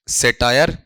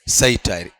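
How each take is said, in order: First: The first vowel is a single flat 'e'. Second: The first vowel glides from 'a' to 'ee'. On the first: The speaker calls it wrong. "हम हम क्या करते हैं पता है?" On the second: The speaker calls it right. "यहां पर यह उच्चारण आएगा सईटाया"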